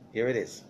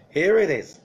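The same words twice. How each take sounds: First: Laughing. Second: Louder, pitched-up proclamation; suddenly loud and emphatic; loud announcement. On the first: Real, not acted. Laughing intro to the curses. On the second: Acted. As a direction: boom it out like a big reveal. Announcing the curses.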